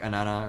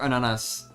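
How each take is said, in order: First: The final s sound is left off. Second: The final s sound is clearly pronounced. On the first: The speaker calls it wrong. "I know it's probably like anana or something like that" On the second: The speaker calls it right. "Sorry. I forget S is like just a regular letter"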